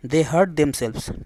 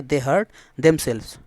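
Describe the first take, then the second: First: Very slow, each word spaced out; slow dictation. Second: Said in the usual way. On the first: Shown as a demonstration. Teacher reading an example sentence to students, very slow. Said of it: "ठीक है।". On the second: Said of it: "ठीक है".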